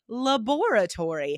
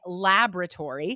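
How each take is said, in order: First: The word is said the British way. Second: The word is said the American way. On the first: "in the U K, ... they say laboratory" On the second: "in the U S, we say laboratory"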